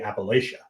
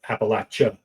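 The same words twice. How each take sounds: First: It is said the Pennsylvania way. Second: It is said the Southern Appalachian way. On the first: The speaker is from the northern mountains. "the folks in Pennsylvania ... say" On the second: The speaker is from the southern mountains. "if you're in Southern Appalachia, it's"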